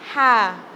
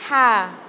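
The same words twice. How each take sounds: First: The ha sound is clean and clear. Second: The ha sound is clean and clear.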